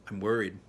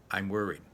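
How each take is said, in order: Both takes have the same delivery.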